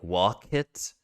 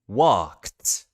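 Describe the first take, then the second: First: An extra vowel is heard between k and t. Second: The k and t are joined with no vowel. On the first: The speaker calls it wrong. "there's that little I sound there that we want to get rid of" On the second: The speaker calls it right. "making sure that there is no middle vowel sound"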